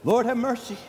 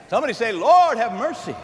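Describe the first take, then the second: First: Said in the usual way. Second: Call to the congregation. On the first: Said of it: "So what did we do?". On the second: Acted.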